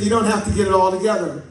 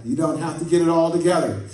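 First: Louder, quicker, higher call to the neighbor; said to your neighbor. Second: Said in the usual way. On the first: Shown as a demonstration. Preacher has the church tell a neighbor, a louder call. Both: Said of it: "Look at your neighbor and say".

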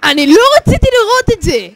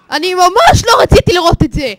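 First: High, loud wail of horror; shrieked protest, all at full volume; horrified shout. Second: High, loud shout leaning hard on ממש; horrified yell with ממש emphasized; horrified stress on ממש. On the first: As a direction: cry out, appalled by the sight. Horrified by what he saw. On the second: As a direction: shout it appalled, stretching and punching ממש. Repeats it with added emphasis. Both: Real, not acted.

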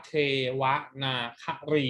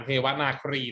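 First: เทวนาครี syllable by syllable, เท-วะ-นา-คะ-รี; correct reading. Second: เทวนาครี with "ครี" run together as one syllable; wrong reading. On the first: Teacher modelling the first word, correct reading of เทวนาครี. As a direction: say เทวนาครี with คะ and รี separated. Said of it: "คำแรกอ่านว่า". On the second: Teacher warning what not to say, wrong reading of เทวนาครี. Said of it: "ไม่อ่านเทวนาครีนะ". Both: Shown as a demonstration.

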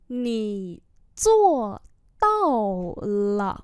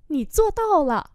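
First: Slow, separated syllables; slow model reading. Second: Said in the usual way. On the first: Shown as a demonstration. Teacher repeating a phrase for learners, slowly. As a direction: leave space between syllables.

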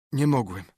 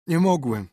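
First: Moaning. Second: "nie mogłem" higher and louder, a pained wail on "mogłem"; anguished repeated moan. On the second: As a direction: moan it out in despair. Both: Acted. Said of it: "zajęczał Potter".

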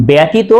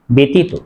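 First: ব্যতীত said "byatito"; wrong open vowel. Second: ব্যতীত said "betito"; e vowel in ব্যতীত, as "betito"; correct e sound. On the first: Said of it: "উচ্চারণ হবে না". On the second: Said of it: "উচ্চারণ হবে". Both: Shown as a demonstration.

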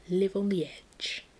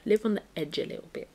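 First: Slow, stretched catchphrase; drawn-out motto. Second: Said in the usual way. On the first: Pretend. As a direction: stretch out "Live on the edge". Repeats the motto for effect.

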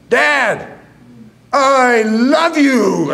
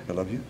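First: Slow, high, drawn-out yell. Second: Much softer, almost swallowed; barely audible. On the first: Son finally yelling I love you to his deaf father, slow and high. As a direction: belt it down the phone line. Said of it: "I'm yelling the phone". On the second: Son mumbling I love you to his father, far too soft. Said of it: "Speak up, son". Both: Retold or imitated.

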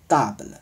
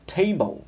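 First: Table said the French way, TAH-bluh; French-style table with a soft final schwa; French pronunciation. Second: Table said the English way, TAY-bul; English-style table, long ei vowel; English pronunciation. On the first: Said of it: "法语读成". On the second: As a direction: say table as in English, "tei-bou". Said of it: "不过英文读成". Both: Shown as a demonstration.

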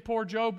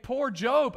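First: Mild pity. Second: Mock pity. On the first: Retold or imitated. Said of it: "we were thinking". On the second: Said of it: "start to think".

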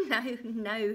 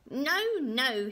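First: Gleeful chuckle into a loud no-no; chuckling refusal. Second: Loud, high, stamping no-no; cross refusal. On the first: A narrator's reading. Little man laughs at her guess, chuckling. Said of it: "he chuckled". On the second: Acted. Little man stamps at wrong guess, angrily. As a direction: throw a little tantrum on it.

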